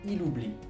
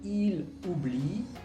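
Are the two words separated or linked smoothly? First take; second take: linked; separated. First: The two words run together without a break. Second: The two words are slightly separated.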